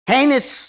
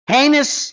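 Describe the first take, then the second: No difference in how they are said.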